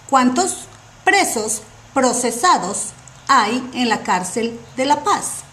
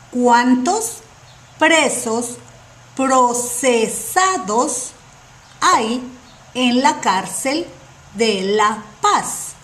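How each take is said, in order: First: The question is spoken at a fast pace. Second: The question is spoken at a slow pace. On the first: "I'm going to speak uh, fast and then slow" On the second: "Now, slow"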